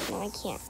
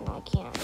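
First: Softly whispered answer; hushed reply. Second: Said in the usual way. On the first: Real, not acted. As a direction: whisper it back to yourself.

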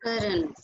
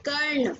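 First: Said in the usual way. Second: "Karn" said as one syllable, with no vowel between r and n. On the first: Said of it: "We will not pronounce it Karan". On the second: Shown as a demonstration. Teacher correcting how a student says the name, "Karn" as one syllable. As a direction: say "Karn" short, running r straight into n. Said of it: "pronounce it Karn".

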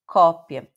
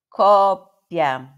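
First: Said in the usual way. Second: "cópia" louder, held on "cop" before "pia"; "cópia" with a long doubled p; lengthened double consonant. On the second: Shown as a demonstration. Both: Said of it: "meio que uma alongada".

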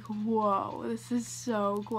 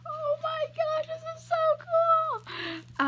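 First: Said in the usual way. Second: High, slow, drawn-out squeal of delight; excited squeal. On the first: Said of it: "But I was like". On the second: Retold or imitated. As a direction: gush like a starstruck fan. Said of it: "I was like".

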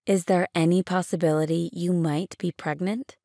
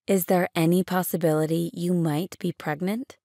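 The two takes are said the same way.

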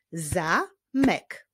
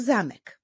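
First: "Zamek" split as za, mek with a pause; syllable by syllable. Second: Said in the usual way. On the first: Shown as a demonstration. Teacher clapping syllables with pupils, "Zamek" in two separate beats. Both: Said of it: "Wyklaszczmy sylaby w tych wyrazach".

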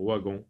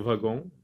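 First: Wagon said as ouagon, quieter; with a w sound. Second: Wagon said as vagon; with a v sound. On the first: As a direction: start wagon with ou. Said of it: "et on peut dire wagon". (wagon avec le son ou) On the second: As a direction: start wagon with v. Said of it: "on peut dire wagon". (wagon avec un v) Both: Shown as a demonstration.

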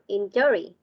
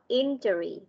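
First: Injury mis-stressed as in-JO-ree; wrong stress shown. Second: Injury as IN-juh-ree, opening syllable punched; stress on first syllable. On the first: Teacher showing what not to say, injury stressed on the second syllable. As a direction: imitate the slip, injury leaning on "JO". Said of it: "not injury". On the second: Teacher showing students the right stress, injury stressed on the first syllable. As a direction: hit the "IN" of injury, let the rest fall. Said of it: "Chúng ta sẽ nhấn vào". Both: Shown as a demonstration.

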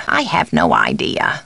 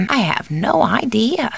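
First: Low, falling admission; subdued take. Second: Lilting, with "no" lifted; animated take. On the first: Housekeeper has no answer, low and subdued. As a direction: drop the voice low throughout. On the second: Housekeeper has no answer, animated lilt. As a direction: swing the pitch up on "no". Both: Acted. Alternate takes of stock line.

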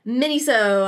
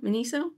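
First: Miniso said as MIH-nee-so, short i in the first syllable; first pronunciation. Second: Miniso? said as muh-NEE-so, questioning rise; corrected pronunciation. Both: Shown as a demonstration. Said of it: "I think it's actually pronounced Miniso".

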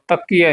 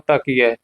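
First: "ਤਕੀਐ" said wrongly with a hard, doubled k; mispronunciation demo. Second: "ਤਕੀਐ" with a soft single k, falling; soft pronunciation. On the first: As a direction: show the mistaken heavy "takkiai" for "ਤਕੀਐ". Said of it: "ਤਕੀਐ ਨਹੀਂ ਬੋਲਣਾ". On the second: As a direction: say "ਤਕੀਐ" lightly as "takiai", no doubled k. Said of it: "ਪੋਲਾ ਬ-, ਤਕੀਐ ਨਹੀਂ ਬੋਲਣਾ". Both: Shown as a demonstration.

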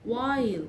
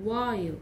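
The two takes are said the same way.

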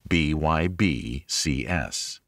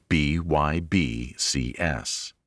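Both takes have the same delivery.

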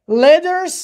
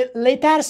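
First: "letters" with the t softened to a quick d; "letters" with a tapped middle consonant; American flap T. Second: "letters" with a crisp full t in the middle; "letters" with an untapped hard t. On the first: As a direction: say "letters" as LEDDERS, American style. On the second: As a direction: say "letters" as LET-TARS, t fully sounded. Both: Shown as a demonstration.

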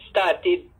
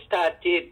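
No difference in how they are said.

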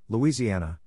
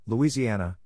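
The two takes are said the same way.

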